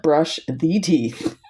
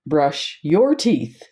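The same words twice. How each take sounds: First: Slow contrast, the leaned on; stress on THE. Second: Said in the usual way. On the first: Shown as a demonstration. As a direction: brush the teeth, slow with THE stressed. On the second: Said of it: "You would say".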